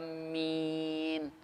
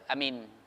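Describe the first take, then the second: First: The first vowel is long. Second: The first vowel is short. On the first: It asks God to grant the request. The speaker calls it right. "Jadi harus panjang A-nya" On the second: It means to trust or believe. The speaker calls it wrong. "Tidak boleh kita baca amin. Salah"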